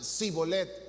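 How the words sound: It begins with an s sound.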